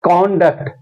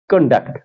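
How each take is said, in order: First: कॉन्डक्ट said KON-dukt, full first vowel; strong KON in कॉन्डक्ट; first-syllable stress. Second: कंडक्ट said kun-DUKT, weak first vowel; light kun, strong DUKT in कंडक्ट; second-syllable stress. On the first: Teacher showing the same pattern, stress on KON. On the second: Teacher showing the same pattern, stress on DUKT. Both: Shown as a demonstration. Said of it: "इसी तरह से".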